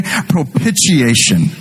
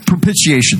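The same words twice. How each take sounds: First: "Propitiation" drawn out slowly, each syllable clear; "Propitiation" said slowly for the crowd to learn; slow spelled-out word. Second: Said in the usual way. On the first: Shown as a demonstration. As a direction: stretch "Propitiation" so they can repeat it. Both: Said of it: "Go ahead and say it".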